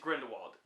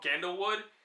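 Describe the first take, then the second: First: The name sounds like Grindelwald. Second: The name sounds like Gandalwood. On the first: The speaker calls it right. "It is Grindelwald" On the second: The speaker calls it wrong. "I say Grindel- Grindelwald or something like that, or Gandalwood"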